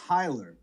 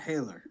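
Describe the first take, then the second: First: The first syllable sounds like 'high'. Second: The first syllable sounds like 'hay'. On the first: The speaker calls it right. "my last name is Heiler" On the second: The speaker calls it wrong. "not Haler"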